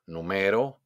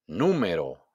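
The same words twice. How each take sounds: First: "número" with weight moved to ME; stress on middle ME. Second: "Número" punched on NÚ, then falling; stress on first syllable. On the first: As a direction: lean on ME, not NÚ, in "número". ("número" acentuado en ME) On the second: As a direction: hit NÚ in "Número". ("Número" con golpe de voz en NÚ) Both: Shown as a demonstration. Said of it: "hago un golpe de voz".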